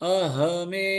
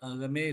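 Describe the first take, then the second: First: The middle consonant is an h sound. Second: The middle consonant is a g sound. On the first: The speaker calls it right. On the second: The speaker calls it wrong. "அகமே இல்ல"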